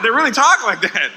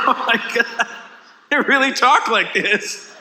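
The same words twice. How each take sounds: First: Said in the usual way. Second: Higher, slow, half-laughing disbelief; amazed laughing aside. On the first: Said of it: "I didn't know that". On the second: Retold or imitated. Comic in the elevator, laughing to himself in amazement. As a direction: marvel through a chuckle. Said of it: "laughing to myself, going".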